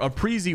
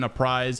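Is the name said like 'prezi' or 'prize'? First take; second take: prezi; prize. First: The name is said like 'prezi'. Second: The name is said like 'prize'. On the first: The speaker calls it right. "which is the correct pronunciation" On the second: The speaker calls it wrong. "I'll never not call this guy a prize"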